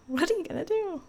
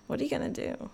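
First: High, playful rhetorical question; high exclaim. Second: Whispering. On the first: Repeated louder and higher. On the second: Question repeated, first in a whisper. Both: Shown as a demonstration.

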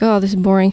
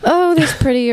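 First: Low, mildly bored complaint; bored students. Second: Higher, lightly put-on admiring remark; token admiration. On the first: Retold or imitated. Students shown artwork in class, mildly bored. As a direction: sound a little bored, pitch sitting low. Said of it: "we're like, "Oh, this is boring". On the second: Students shown artwork in class, offhand admiration. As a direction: lift the pitch in offhand mock appreciation. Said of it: "we're like".

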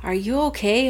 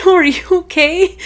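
First: Put-on slightly higher child's question; lightly voiced daughter. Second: High, loud imitation of a concerned kid; insistent daughter. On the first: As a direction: check on mom, lightly imitating a kid. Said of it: "Our daughter's like". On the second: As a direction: press the question like a worried child. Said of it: "She's like".

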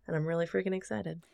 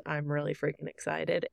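First: Quiet, calm and unhurried; said calmly. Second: Quietly saying 'freaking excited' with no energy; soft. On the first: Real, not acted. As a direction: understate the excitement, softly. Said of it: "saying that so calmly". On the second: Shown as a demonstration. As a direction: hold the excitement back, softly. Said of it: "like, soft".

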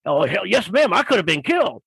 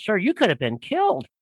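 First: Lightly voiced biker agreeing heartily; emphatic biker. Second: Lightly voiced shocked woman, pitched up; a hint of a wide-eyed lady's concern. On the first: Biker answers the lady about his close call, imitated emphatic agreement. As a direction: imitate a storyteller milking the danger. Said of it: "listening to this guy tell his story". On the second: Lady in line warns the biker, imitated shock. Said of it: "one of the ladies goes".

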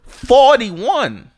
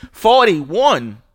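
First: Much higher, louder outraged yell of the score; outraged shout. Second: Incredulous. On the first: To Rockets fans after a blowout loss, outraged shout. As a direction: blast the number out in outrage. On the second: To Rockets fans brushing off the loss, incredulous. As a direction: repeat the number like you can't believe it. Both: Real, not acted.

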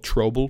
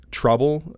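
First: "trouble" said as "troble", with an O sound; imitated accent, "trouble" with an O for the U; Steiner's accented pronunciation. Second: Said in the usual way. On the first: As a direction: round the vowel of "trouble" into "troble". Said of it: "how he would say it in his accent". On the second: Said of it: "trouble is spelled trouble".

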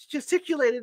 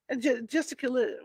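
First: "gesticulated" said whole, slightly higher; finally gets it right. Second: Trips over "gesticulated", restarting; stumbling on a word. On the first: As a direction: land "gesticulated" cleanly at last. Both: Real, not acted. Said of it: "I can't say this word".

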